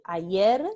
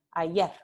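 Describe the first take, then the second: First: Said in the usual way. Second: Ayer ending in a devoiced, breathy r; voiceless final r. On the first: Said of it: "en lugar de decir ayer". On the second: Shown as a demonstration. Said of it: "se dice ayer".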